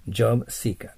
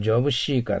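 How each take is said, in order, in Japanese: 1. Seeker は はっきりした s の音で始まります。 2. Seeker は s 以外の音で始まります。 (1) "せの口で" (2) "これをjob seeker と言っては英語にはなりません。"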